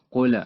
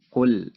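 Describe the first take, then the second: First: The final l ends with an echoing bounce. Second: The final l ends cleanly without a bounce. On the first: The speaker calls it wrong. "seringkali orang-orang memantulkan suara pada setiap huruf yang sukun" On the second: The speaker calls it right. "cara baca yang benar"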